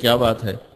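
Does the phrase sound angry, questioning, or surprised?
questioning. It is said as a plain inquiring question. The speaker is asking what the matter is. "आपके ज़हन में आता है कि मौलवी साहब कोई बात पूछ रहे हैं"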